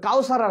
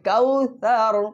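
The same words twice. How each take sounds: First: The middle consonant is a plain s sound. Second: The middle consonant is a soft th sound. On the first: The speaker calls it wrong. "কাউসার আমরা বাংলায় যেরকম বলি" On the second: The speaker calls it right. "নরম, জিব্বার মাথা এই দুই দাঁতের উপরে লাগাই"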